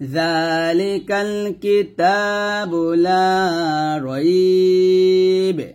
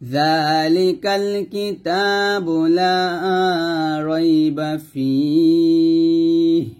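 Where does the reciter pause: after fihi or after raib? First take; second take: after raib; after fihi. First: The pause comes right after raib. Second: The pause comes right after fihi. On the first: "আপনি যদি এখানে থামেন তাহলে যালিকাল কিতাবু লা রাইব এরকম পড়বেন" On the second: "না আমি এইখানে থামবো তাহলে এরকম পড়তে হবে"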